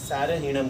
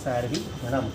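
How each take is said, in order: First: The final syllable runs on without any break. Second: The final syllable is set apart by a break. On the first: It means without essence. The speaker calls it wrong. "સારહીણમ એટલે સાર વગરનું થઈ ગયું" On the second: It means the charioteer. The speaker calls it right. "ખાલી રમ જુદું પાડો"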